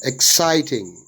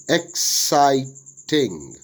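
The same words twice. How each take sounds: First: Said in the usual way. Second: "exciting" slowly split as ex, sigh, ting; syllable by syllable. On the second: Shown as a demonstration. Teacher dividing worksheet words, "exciting" broken into syllables. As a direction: say "exciting" slowly in three separate beats. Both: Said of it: "syllable division of the words".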